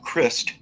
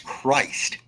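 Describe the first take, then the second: First: The vowel is short, as in 'christen'. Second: The vowel is long, unlike in 'christen'. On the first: The speaker calls it wrong. "It is not Christ, as in Christen" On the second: The speaker calls it right. "it's Christ"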